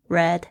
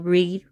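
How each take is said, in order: First: It uses the past-tense pronunciation of the word. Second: It uses the present-tense pronunciation of the word. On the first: The action happened in the past. "因为是过去式，它的发音是不一样的哦" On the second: The action happens in the present. "这个read 要改成read"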